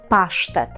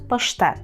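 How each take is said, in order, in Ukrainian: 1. Слово pasztet має польський наголос. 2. Слово pasztet має український наголос. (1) "зверніть увагу на наголос, ми кажемо паштет" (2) "Це паштет"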